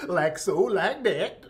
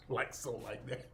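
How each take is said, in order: First: Sing-song Southern drawl on "like so, like that"; mock Southern accent. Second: The catchphrase "like so, like that" muttered much softer through a laugh; a soft chuckling echo of the catchphrase; quiet mock repeat. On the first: Streamer parodying a cooking influencer's catchphrase, exaggerated Southern accent. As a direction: perform the catchphrase with a thick Southern lilt. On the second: Streamer echoing the influencer's catchphrase to himself, quiet and amused. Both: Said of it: "she sounds like Mammy, our maid".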